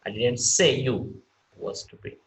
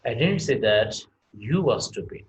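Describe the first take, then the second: First: "say" stressed, pitch falling on it. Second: "didn't" hit hard and loud, the rest said normally; stress on didn't. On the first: Teacher showing students stress on "say", falling tune. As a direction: put the weight on "say", not on "didn't". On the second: Teacher showing students stress on "didn't", punched loud. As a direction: lean on "didn't" like denying it. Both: Shown as a demonstration. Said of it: "where we are going to stress".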